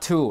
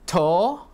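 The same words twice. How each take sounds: First: The vowel is an oo sound. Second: The vowel is a pure o sound. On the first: The speaker calls it wrong. "not to" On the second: The speaker calls it right. "Because O is O, not U"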